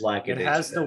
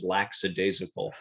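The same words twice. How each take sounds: First: The first syllable sounds like 'lack'. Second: The first syllable sounds like 'lax'. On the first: The speaker calls it right. "It's just" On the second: The speaker calls it wrong. "I associated it with the word relax, and I thought it was lackadaisical. It's not that"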